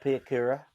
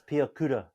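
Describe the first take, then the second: First: An Australian accent, with an O-like vowel sound. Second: Māori pronunciation, with pure vowels and rolled R. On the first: The speaker calls it wrong. "all you Australian commentators say Kura ... There's no O's in his name. It's not Pia Kura" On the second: The speaker calls it right. "It's Pia Kura ... roll your fucking R's"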